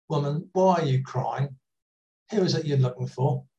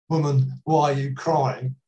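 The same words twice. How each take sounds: First: Gently voiced tender question. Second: Firmer, mildly brusque question; a bit rude. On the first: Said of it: "Jesus speaks so tenderly to her". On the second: Shown as a demonstration. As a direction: make it sound slightly confrontational. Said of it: "that would sound a bit rude".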